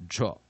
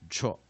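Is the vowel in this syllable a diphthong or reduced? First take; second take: reduced; reduced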